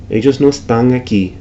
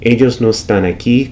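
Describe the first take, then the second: First: Están said estang with a back nasal; ng ending on están; velarized n. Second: Said in the usual way. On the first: Shown as a demonstration. Teacher imitating Caribbean velar n. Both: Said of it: "could be".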